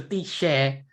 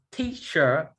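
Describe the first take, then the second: First: "teacher" ending in an open "-sheh"; Burmese pronunciation. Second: Said in the usual way. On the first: Shown as a demonstration. Puzzled student demonstrating Burmese loanword, "teacher" said as "tee-sheh". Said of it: "turn into teacher". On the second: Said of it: "How did teacher turn into teacher".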